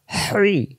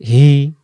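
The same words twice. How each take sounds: First: Higher "হ্রি" with squeezed whooshing h, no real r; hissing throaty hi. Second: "হি" as an easy open h; louder "হি" without throat friction; plain hi. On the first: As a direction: force "হ্রি" through a tight throat. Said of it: "শো শো আওয়াজে". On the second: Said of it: "দুই অক্ষর দুই রকম উচ্চারণ". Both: Shown as a demonstration.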